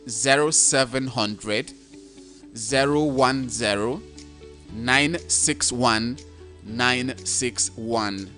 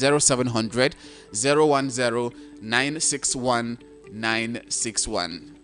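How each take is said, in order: First: The number is said slowly. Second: The number is said fast.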